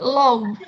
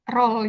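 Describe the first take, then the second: First: The word starts with an L sound. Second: The word starts with an R sound. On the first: "Terus dia nyebut low" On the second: "dosenku mau nyebut roll"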